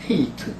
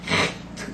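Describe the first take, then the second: First: It starts with a soft, plain breathy h. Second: It starts with a rough, scraping throat sound. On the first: The speaker calls it wrong. "소리를 제대로 내지 않으면 어떤 소리가 나냐 이랬습니다. 그냥 편하게" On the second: The speaker calls it right. "이렇게 내셔야 돼요"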